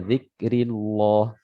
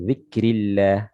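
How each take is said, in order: First: The L in Allah is pronounced heavy and thick. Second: The L in Allah is pronounced light and thin. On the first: The speaker calls it wrong. "tidak boleh dibaca" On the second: The speaker calls it right. "lafzul jalalah tarqiq, ya ditipiskan"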